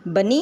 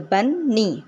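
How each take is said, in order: First: Said in the usual way. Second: बन्नी broken into बन, नी; split syllables. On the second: Shown as a demonstration. Teacher showing bunny has two syllables, split syllables. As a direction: say बन्नी as two separate beats, बन then नी. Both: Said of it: "बनी में टू syllables हैं".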